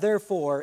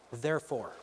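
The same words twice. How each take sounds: First: "therefore" stressed loud, falling. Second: Soft low "Therefore." read plainly off the page; "Therefore." low and soft, falling; quiet read word. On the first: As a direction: hit "therefore" hard as the key word. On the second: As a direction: read "Therefore." softly, as a quote. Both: Shown as a demonstration. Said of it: "is a big word".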